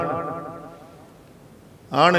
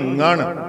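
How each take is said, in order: First: The word begins with a plain vowel sound. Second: The word begins with a nasal ng sound. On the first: The speaker calls it wrong. "अण नहीं" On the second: The speaker calls it right. "ngण गंगा शब्द उचारण किया महाराज"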